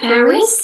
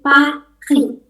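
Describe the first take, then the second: First: The R is not made in the throat. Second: The R is made in the throat. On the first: The speaker calls it wrong. "Bukan Paris" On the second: The speaker calls it right. "tapi Paris"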